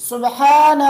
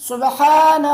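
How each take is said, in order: The two takes are said the same way.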